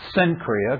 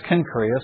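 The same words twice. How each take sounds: First: The name begins with a soft s sound. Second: The name begins with a hard k sound. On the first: The speaker calls it wrong. "because that's how it looks like it's spelled" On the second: The speaker calls it right. "apparently the proper pronunciation of the name is Cenchrea"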